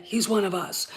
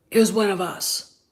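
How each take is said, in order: First: Conspiratorial whisper of "one". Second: "is" podkreślone, opadająco; emphatic. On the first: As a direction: whisper it like a secret. Repeats it as whisper. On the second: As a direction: stress on is, falling. Stresses then whispers it. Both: Real, not acted.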